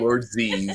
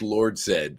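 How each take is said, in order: First: The name ends with the sound 'zee'. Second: The name ends with the sound 'zed'. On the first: The speaker calls it wrong. "You're not going to call him Lord Z" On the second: The speaker calls it right. "Zed is way cooler sounding than Z"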